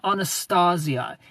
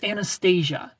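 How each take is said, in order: First: Anastasia said "ah-nuh-STAH-zee-uh"; rejected pronunciation. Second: Anastasia said "an-uh-STAY-zhuh"; corrected pronunciation. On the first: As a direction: say Anastasia with open "ah" and a Z. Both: Shown as a demonstration. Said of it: "Your name is not Anastasia".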